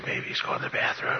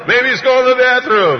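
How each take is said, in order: First: Voiceless conspiratorial whisper; hushed divine prompting. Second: Very high, loud taunt; mocking high yell; shouted sarcasm. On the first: Acted. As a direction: whisper the rude joke as a cue. God whispering lines to Elijah. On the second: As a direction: holler the jibe at the top of the voice. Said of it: "sarcasm and cynicism in this".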